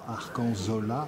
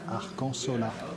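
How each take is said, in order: First: The consonant before -ola is a z sound. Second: The consonant before -ola is an s sound. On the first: The speaker calls it wrong. "non pas Arcanzola" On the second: The speaker calls it right. "le Z en basque se prononce S"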